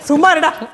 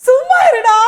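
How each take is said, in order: First: It is said in a disgusted tone. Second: It is said in a happy tone. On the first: "வெறுப்பா. அருவருப்பு" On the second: "சந்தோஷமா"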